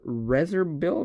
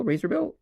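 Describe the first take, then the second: First: "razorbill" said as REZ-er-bill; first syllable of "razorbill" rhymes with fez; short-vowel RAZORBILL. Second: "razorbill" said as RAY-zer-bill; first syllable of "razorbill" rhymes with day; long-vowel RAZORBILL. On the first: Streamer guessing at a card, "razorbill" with a short e. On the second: Streamer correcting the reading, "razorbill" with a long a. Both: Real, not acted. Tries two readings of name.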